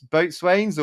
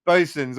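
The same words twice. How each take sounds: First: "boatswains" said as written, boat-swains; spelled-out pronunciation. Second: "bosuns" contracted to BOH-sunz; nautical pronunciation. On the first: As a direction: sound out both full words in "boatswains": boat, swains. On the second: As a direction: say "bosuns" as sailors do, with a reduced second syllable. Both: Real, not acted.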